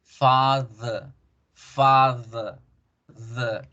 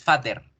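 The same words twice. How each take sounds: First: "father" as a slow FAAH-thuh; English schwa pronunciation. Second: "father" as FAH-der with a sounded r; Spanish-style pronunciation. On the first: Teacher models the corrected word, schwa pronunciation. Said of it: "es father". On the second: Teacher shows what it no longer is, Spanish-style pronunciation. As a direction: read "father" with Spanish d and final er. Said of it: "Ya no es father". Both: Shown as a demonstration.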